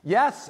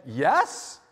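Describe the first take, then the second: First: Yes said higher and settled; firmer yes. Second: Hesitant yes with a questioning lift; unsure questioning yes. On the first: To the brown belt stranger, a firmer settled yes. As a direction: correct yourself, now sure. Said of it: "I wasn't sure". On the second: To the brown belt stranger, a doubtful questioning yes. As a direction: answer like you're not sure it's right. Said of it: "Kinda like a question mark". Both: Retold or imitated.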